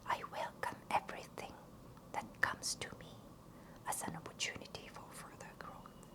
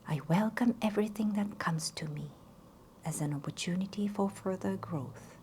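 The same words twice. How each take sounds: First: It is whispered without voice. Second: It is spoken softly with voice.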